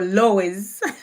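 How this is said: It is said with another Kenyan pronunciation. The speaker calls it wrong.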